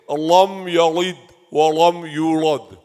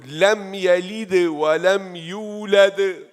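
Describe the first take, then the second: First: The L sounds are pronounced thick and heavy. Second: The L sounds are pronounced thin and light. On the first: The speaker calls it wrong. "So don't say" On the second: The speaker calls it right. "Say thin"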